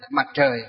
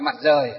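First: The second word begins with a curled-tongue tr sound. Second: The second word begins with a plain r sound. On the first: This is the standard way of saying it. "hơi uốn lưỡi lên một chút" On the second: This is the older way of saying it. "các cụ ngày xưa"

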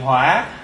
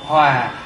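First: The word has a dipping tone. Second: The word has a low falling tone. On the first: It means fire or anger. "bỏ dấu hỏi thì hỏa" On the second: It means to be in harmony. "bỏ dấu huyền thì hòa"

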